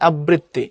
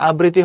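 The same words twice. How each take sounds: First: "আবৃত্তি" as ab-britti; ব double. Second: Said in the usual way. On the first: Shown as a demonstration. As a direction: double the b in "আবৃত্তি". ("আবৃত্তি"-তে ব দ্বিত্ব করে) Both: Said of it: "তখন আগেরটা double হয়".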